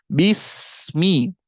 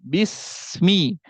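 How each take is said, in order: No difference in how they are said.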